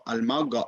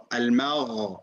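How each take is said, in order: First: Al-Magha with a blocked hard g; Al-Magha turned into Al-Magga; mistaken ghain. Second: Al-Magha with free airflow through the gh; Al-Magha ending on a flowing throat fricative; correct ghain. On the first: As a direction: say the wrong Al-Magha, a plosive g in place of gh. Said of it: "Don't say Al-Magha". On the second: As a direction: model Al-Magha with a gargled, unblocked gh. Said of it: "You allow the airflow just to be free". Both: Shown as a demonstration.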